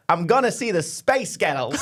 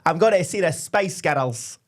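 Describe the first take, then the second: First: Slow put-on American accent; American-accent take. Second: Slow, drawn-out Scottish accent. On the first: Co-host showing the American version beside the Scottish, American accent. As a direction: stretch it out in mock American. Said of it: "Or you go". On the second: Co-host contrasting Scottish with American, slow Scottish accent. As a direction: say it slowly as a Scot would. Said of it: "if you're Scottish, you'd go". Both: Shown as a demonstration.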